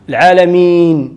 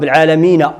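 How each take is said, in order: First: The word ends on a bare n sound. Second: The final n is followed by a short a. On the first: The reader stops on this word. "حين تنوقفوا واش تيولي" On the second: The reading continues without stopping. "النون اللي لها فتحة"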